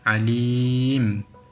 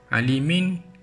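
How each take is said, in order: First: The word ends on m without n. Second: The word ends with an extra n sound. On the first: The speaker calls it right. "kerana kita baca dengan alim" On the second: The speaker calls it wrong. "Alimin ketika wakaf salah bacaan itu"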